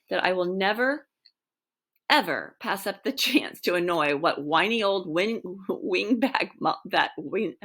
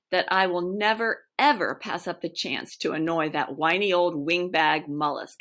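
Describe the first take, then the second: First: Laughter breaking into the line; losing it mid-sentence; cracking up. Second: Said in the usual way. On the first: Real, not acted. Reader cracking up over the insult to the wingback. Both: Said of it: "I have to start over on that one".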